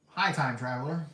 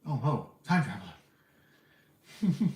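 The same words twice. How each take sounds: First: Said in the usual way. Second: Slow, teasing "Oh, ho" greeting; playful drawn-out greeting. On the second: Shown as a demonstration. Greeting the time traveler again, slow and teasing. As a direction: stretch it out like a knowing tease.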